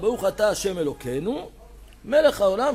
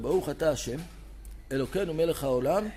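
First: Hashem and Elokeinu are joined, pause after Elokeinu. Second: A pause separates Hashem from Elokeinu. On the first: The two names are read as one unit. The speaker calls it right. "צריך לצמיד השם לאלוקינו" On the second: It sounds like two separate names. The speaker calls it wrong. "איך אתה מפסיק בין השם לאלוקינו"

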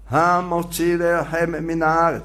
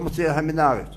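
First: The opening h sound is clearly pronounced. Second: The opening h sound is swallowed and dropped. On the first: The speaker calls it right. "צריך להדגיש את ההי" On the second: The speaker calls it wrong. "לא ... זה בלעות"

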